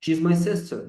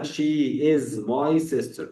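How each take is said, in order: First: Said in the usual way. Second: "she is my sister" with the words kept apart; full form. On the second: Shown as a demonstration. (نطق she is كاملة ببطء) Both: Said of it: "مش هقولها she is my sister".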